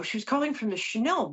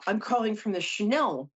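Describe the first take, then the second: First: Said in the usual way. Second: Put-on French accent, pitched up. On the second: French caller from Chanel phoning about a job, French accent. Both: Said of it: "I'm not gonna do the accent anymore".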